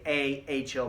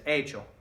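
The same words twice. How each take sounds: First: The two words are said separately and slowly. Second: The two words are run together quickly. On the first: The speaker calls it wrong. "they're not going to say he hecho mi tarea" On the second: The speaker calls it right. "They're going to say it like this"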